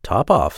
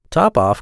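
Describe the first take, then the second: First: Cat's offhand cool answer; understated, unbothered reply; quite cool. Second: Mildly astonished mouse echo; crying out. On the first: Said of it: "said the cat quite coolly". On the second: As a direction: cry it out as a puzzled mouse. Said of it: "cried the mouse". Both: A narrator's reading.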